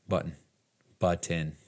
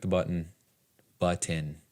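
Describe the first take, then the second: The two takes are said the same way.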